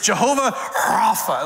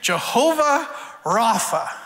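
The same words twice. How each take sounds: First: The consonant in Rapha is harsh and throaty. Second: The consonant in Rapha is plain and soft.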